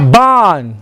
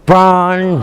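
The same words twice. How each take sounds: First: It is said without an American accent. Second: It is said with an American accent.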